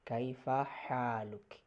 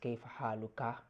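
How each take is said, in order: First: The last word ends on a bare consonant. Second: The last word ends with a short vowel. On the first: It can address either a man or a woman. "the proper way of saying this is kaifa haluk" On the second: It addresses a man. "in traditionally, it is kaifa haluka"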